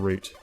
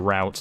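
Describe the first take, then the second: First: The word is said in a British way. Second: The word is said in an American way. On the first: The speaker calls it right. "instead of route" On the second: The speaker calls it wrong. "British British voice actors that use the word route"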